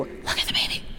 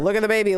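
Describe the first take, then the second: First: The phrase is whispered without full voice. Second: The phrase is muttered quietly under the breath. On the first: "whisper it to you" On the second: "he would mutter it to himself"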